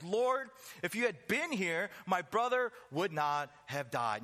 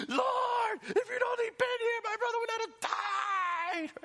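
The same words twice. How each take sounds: First: Said in the usual way. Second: Screaming high and loud, crying through it; K-drama wailing. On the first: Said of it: "like she's in a K-drama". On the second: Pretend. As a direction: wail it like a sobbing soap heroine. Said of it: "Martha in tears with snot and screaming like she's in a K-drama".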